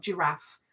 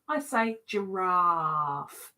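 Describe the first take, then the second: First: Giraffe with short a, zhuh-RAF; the other giraffe. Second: Giraffe said slow, soft sh-zh start, RAHF; her own giraffe. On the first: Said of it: "not giraffe". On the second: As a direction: say giraffe as zhuh-RAHF, slowly. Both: Shown as a demonstration.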